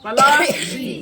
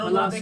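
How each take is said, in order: First: The middle consonant is a forceful sh sound. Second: The middle consonant is an easy s sound. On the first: This is the original name of the place. The speaker calls it right. "पलासी का असली नाम अगर पूछा जाए तो उसका नाम था पलाशी। ... जोर से बोलेंगे" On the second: This is the name as distorted by the English. The speaker calls it wrong. "उसका नाम बिगाड़ करके पलासी रख दिया"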